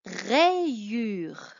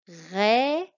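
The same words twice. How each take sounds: First: "rayure" said clearly, falling at the end; dictation word. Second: "Rayure" repeated louder, rising; dictation repeat. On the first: Teacher dictating a word to pupil. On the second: Teacher repeating a dictation word. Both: Shown as a demonstration. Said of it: "tu vas écrire".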